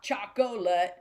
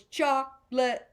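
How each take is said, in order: First: "chocolate" said in full as CHOC-o-lit, middle O kept; three-syllable chocolate. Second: "chocolate" said as CHOC-lit, with the middle O dropped; two-syllable chocolate. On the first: Teacher showing the wrong triplet version, three syllables. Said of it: "not chocolate, 'cause that would just be a triplet". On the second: Teacher fitting the word to the rhythm, two syllables. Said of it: "chocolate is gonna have two syllables". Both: Shown as a demonstration.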